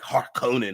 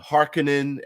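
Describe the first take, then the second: First: The opening H is harsh and strong. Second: The opening H is soft and light. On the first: This is the speaker's preferred way. The speaker calls it right. "the harsher H on the on the beginning is better" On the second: This is how the film says it. The speaker calls it wrong. "as they pronounce it"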